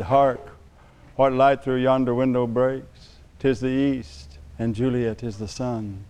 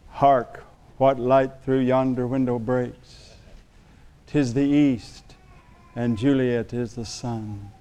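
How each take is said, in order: First: Hammy stage actor. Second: Slow, soft theatrical Shakespeare recital; lightly hammed-up Romeo reading; hammy stage actor. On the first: Retold or imitated. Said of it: "I quoted Shakespeare". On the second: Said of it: "habit of quoting Shakespeare".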